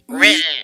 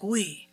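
First: It is said in a shivering Quebec French accent. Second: It is said in a Parisian French accent. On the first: "But like in Canada, it's like, ... They're just shivering out there" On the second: "in Paris, it's like"

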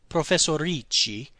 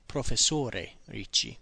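First: The title ends without the final 'e' vowel. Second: The title ends with an audible 'e' vowel. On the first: The speaker calls it right. "you would say Professor Ricci" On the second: The speaker calls it wrong. "You wouldn't say Professore Ricci"

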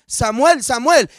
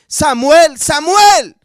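First: The name is said plainly, not called out. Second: The name is called out, as if summoning.

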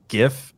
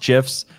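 First: The word begins with a hard G sound. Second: The word begins with a soft J sound. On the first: The first word of the name is graphic. "when I know the first word is graphic that I think of it as gif" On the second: This is how the inventor says it. "the guy who invented them says it's pronounced gifs"

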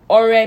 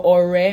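First: It has the tone pattern meaning offering. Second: It has the tone pattern meaning friend. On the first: The word means an offering. "Ore means offering" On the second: The word means a friend. "but Ore means friend"

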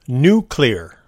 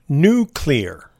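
First: The word ends in a 'clear' sound. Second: The same.

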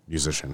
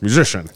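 First: The word sounds hesitant and unsure. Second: The word sounds confident and assured.

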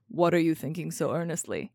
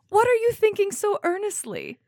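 First: It is read in a put-on male character voice. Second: It is read in the reader's ordinary voice. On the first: The speaker calls it right. "I need to do my Henry voice" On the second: The speaker calls it wrong. "excuse me. I need to do my Henry voice"

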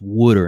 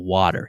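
First: It is said with a Philadelphia accent. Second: It is said with a standard American accent. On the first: The speaker calls it right. "no, it's pronounced water" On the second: The speaker calls it wrong. "instead of water"

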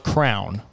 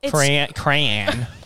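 First: The word is said with one syllable, like crown. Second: The word is said with two syllables. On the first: "is pronounced crown?" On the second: "Crayon or crown"

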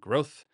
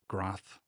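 First: The vowel sounds like the one in 'both'. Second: The vowel sounds like the one in 'moth'. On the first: The speaker calls it right. "pronounced like both" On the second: The speaker calls it wrong. "not Groth, like Roth IRA or Moth"

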